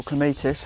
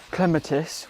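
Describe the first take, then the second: First: Clematis as kluh-MAY-tis; second-syllable stress. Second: Clematis as KLEM-uh-tis; first-syllable stress. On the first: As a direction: say clematis with a long MAY in the middle. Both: Shown as a demonstration. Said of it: "however you want to say it".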